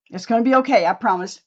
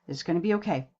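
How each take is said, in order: First: Louder, higher reassurance; reassuring. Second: Said in the usual way. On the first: Real, not acted. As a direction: promise it brightly and firmly. Reassuring viewers about the look.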